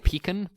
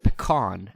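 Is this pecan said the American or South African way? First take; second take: South African; American. First: It is said with the South African pronunciation. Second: It is said with the American pronunciation. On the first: "so I say pecan" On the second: "a lot of Americans call it pecan"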